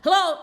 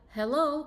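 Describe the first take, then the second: First: It sounds agitated and rushed. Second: It sounds calm and relaxed.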